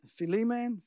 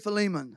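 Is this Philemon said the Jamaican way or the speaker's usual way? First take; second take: Jamaican; usual. First: It is said with the Jamaican pronunciation. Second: It is said with the speaker's usual pronunciation. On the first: "That's how they say it in Jamaica" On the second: "I say Philemon"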